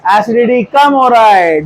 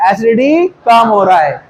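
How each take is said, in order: First: Slow, with कम leaned on hard; teacher stressing कम slowly. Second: Said in the usual way. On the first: Shown as a demonstration. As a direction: drag out the sentence and punch कम. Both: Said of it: "donating group बढ़ रहा है".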